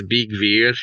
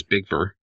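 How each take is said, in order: First: Bigvir said "beeg-veer", long ee; corrected pronunciation. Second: Bigvir anglicized, ending in an English "ver"; anglicized pronunciation. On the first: Shown as a demonstration. Host correcting himself for listeners, Bigvir pronounced "beeg-veer". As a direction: give Bigvir its un-anglicized long vowels. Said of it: "Anglis-, anglicized". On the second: Real, not acted. Host introducing Frey's servant, name anglicized: Bigvir as "Big-ver". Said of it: "I really whited that out".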